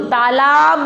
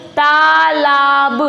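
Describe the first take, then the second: First: Said in the usual way. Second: तालाब chanted slowly in long syllables; syllable-by-syllable reading. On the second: Shown as a demonstration. Teacher reads along with pupils, तालाब sounded out slowly. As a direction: draw out each syllable of तालाब. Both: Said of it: "तो पढ़ो".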